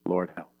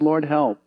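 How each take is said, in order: First: Soft, hushed prayer for help; quiet plea. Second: Higher, firmer cry for help; urgent plea. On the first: Israelites in the wilderness, a soft hushed plea. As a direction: breathe it out like a desperate prayer. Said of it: "they said one thing". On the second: Israelites crying out to God, a higher urgent call. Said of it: "And when they said". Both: Acted.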